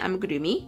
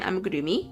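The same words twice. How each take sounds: First: The r sounds almost like a d. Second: The r sounds almost like a d.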